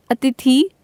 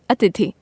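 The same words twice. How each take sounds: First: अतिथि said with a short first a, rising; the wrong form of अतिथि, rising; wrong spelling said aloud. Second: अतिथि said with a long first a, falling; the corrected अतिथि, falling; correct form. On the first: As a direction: read out the misspelt अतिथि, lifting at the end. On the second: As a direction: read out the correct अतिथि, settling down at the end. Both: Shown as a demonstration. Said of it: "वर्तनी संबंधी अशुद्धियां तथा उनका शोधन".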